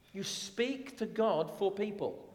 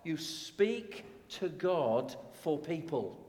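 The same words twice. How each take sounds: First: God lifted higher; stress on God. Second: Slow, spaced out, each word weighed; slow and deliberate. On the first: Preacher repeating the theme, leaning on God. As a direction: lean on the word "God". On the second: Preacher stating the theme slowly to the church. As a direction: lay it down slowly for the congregation. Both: Shown as a demonstration.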